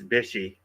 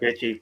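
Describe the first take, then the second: First: The middle consonant is an 'sh' sound. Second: The middle consonant is a 'ch' sound. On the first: The speaker calls it right. "but it's Bishy. Let me say that correctly" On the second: The speaker calls it wrong. "I keep saying Bitchy"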